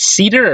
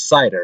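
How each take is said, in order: First: The first vowel sounds like 'ee'. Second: The first vowel sounds like 'eye'. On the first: "Is it Cedar or Cider?" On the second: "I think it's Cider"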